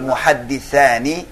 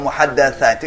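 First: The vowel after the double d is 'i'. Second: The vowel after the double d is 'a'. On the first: It names those who narrate. The speaker calls it right. "kalau محدثاني itu اسم ما اسم فاعل" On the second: It names those who are narrated about. The speaker calls it wrong. "kalau محدثاني itu bentuk اسم مفعول"

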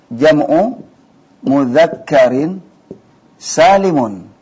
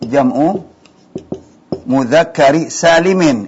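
First: The last word ends with an -un sound. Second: The last word ends with an -in sound. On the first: The adjective describes the plural noun. The speaker calls it right. "Ini yang benar" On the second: The adjective describes the masculine noun. The speaker calls it wrong. "Ini salah"

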